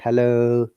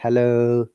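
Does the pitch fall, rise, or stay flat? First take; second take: flat; flat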